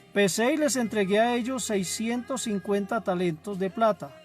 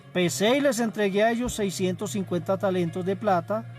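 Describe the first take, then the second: Both takes have the same delivery.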